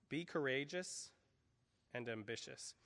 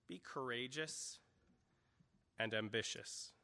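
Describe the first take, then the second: The two takes are said the same way.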